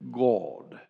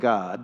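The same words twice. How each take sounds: First: The word is said in a solemn, pious way. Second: The word is said in a plain, ordinary way. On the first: This is a show of holiness for others to see. "they said God" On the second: This is how a normal person says it. "instead of saying God"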